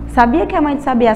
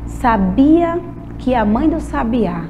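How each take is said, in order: First: The phrase is spoken quickly. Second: The phrase is spoken slowly and carefully. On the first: "Agora vamos tentar rápido?" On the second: "Essa deu para falar porque foi devagar"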